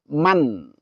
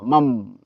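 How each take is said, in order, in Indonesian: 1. Kata ini berakhir dengan bunyi n yang jelas. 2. Kata ini berakhir dengan bunyi m. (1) "Man izhar" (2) "atau uh, mam"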